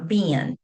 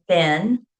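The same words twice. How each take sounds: First: "ben" said as "bee-un", vowel drawn toward ee; dialect pronunciation. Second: "ben" said with a short e, like Ben; standard pronunciation. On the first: Linguist showing a dialect spelling of been, dialect pronunciation. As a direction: say "ben" closer to "bean". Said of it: "or ben". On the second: Linguist showing how B E E N usually sounds, standard pronunciation. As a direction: say "ben" with one short, clean vowel. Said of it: "like ben". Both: Shown as a demonstration.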